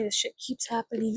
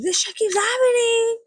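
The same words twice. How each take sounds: First: Said in the usual way. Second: Laughing cry. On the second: Real, not acted. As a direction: cry it out half-laughing, half-wailing. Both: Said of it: "It's just so funny".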